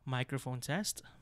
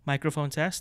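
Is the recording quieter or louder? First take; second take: quieter; louder. First: The recording is fairly quiet, with low input level. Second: The recording is loud, near the point of clipping. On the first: "The gain is set at 12 o'clock, so this is significantly less compared to our mic alone with the max gain" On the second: "So around 1 o'clock is the point in which you will start to clip"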